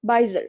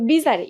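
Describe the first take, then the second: First: বাইজার said as bai-zar, stress on the first part; correct pronunciation. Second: বিজারে said as bee-ja-re, the common mistake; wrong reading. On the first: Teacher giving students the right sound of bizarre. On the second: Teacher voicing the common wrong reading of bizarre. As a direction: read বিজারে letter by letter as bee-ja-re. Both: Shown as a demonstration. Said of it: "এটার উচ্চারণ আসলে বাইজার".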